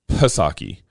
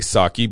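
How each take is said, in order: First: The initial P is sounded. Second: The initial P is silent. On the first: The speaker calls it right. "You pronounce the P" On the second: The speaker calls it wrong. "I know people like to say Psaki, but I think that's wrong"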